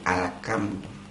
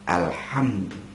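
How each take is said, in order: First: The middle consonant is a thin k sound. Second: The middle consonant is a deep breathy h. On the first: It no longer means all praise. The speaker calls it wrong. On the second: It means all praise. The speaker calls it right.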